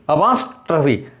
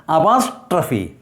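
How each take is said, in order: No difference in how they are said.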